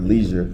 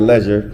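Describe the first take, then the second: First: It is said without a South African accent. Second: It is said in a South African accent.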